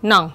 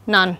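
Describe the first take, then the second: First: "none" said as "non", with an o sound; o vowel. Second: "none" said as "nun"; short u vowel. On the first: Teacher contrasting the remaining words' vowel, o sound. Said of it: "đọc là âm o". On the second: Teacher giving the odd vowel of answer B, short u. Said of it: "Cái âm nó được đọc là âm, à, âm mũ". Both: Shown as a demonstration.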